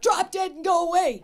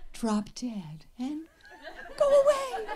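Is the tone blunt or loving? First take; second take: blunt; loving. First: It is said bluntly and harshly. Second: It is said in a sweet, loving tone.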